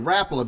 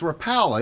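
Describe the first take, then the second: First: It is said the original Finnish way. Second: It is said the common Americanized way. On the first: "it's actually Rapala because the founder" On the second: "a lot of people say it's Rapala"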